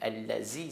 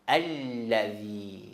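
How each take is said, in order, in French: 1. La consonne du milieu est un z sonore. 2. La consonne du milieu est un th doux. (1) "Allazi, c'est faux" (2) "Ça, je répète tout le temps"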